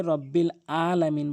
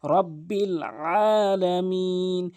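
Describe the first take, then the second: First: "আলামিন" begun with plain glottal a; mistaken hamza. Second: "আলামিন" begun with pressed ain, vowels drawn out; correct throaty AIN. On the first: Teacher shows the grave mistake, "আলামিন" with hamza. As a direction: say "রব্বিল আলামিন" unchanted, no throat pressure. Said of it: "মারাত্মক লেভেলের ভুল করে". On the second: Teacher models the verse, "আলামিন" with throaty ain. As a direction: slowly chant "রব্বিল আলামিন" with mid-throat ain. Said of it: "আইনটি হলকের মাঝখান থেকে চাপ দিয়ে উচ্চারণ". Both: Shown as a demonstration.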